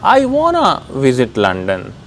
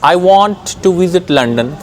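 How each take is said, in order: First: 'Want to' is merged into 'wanna'. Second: Both words of 'want to' are fully pronounced.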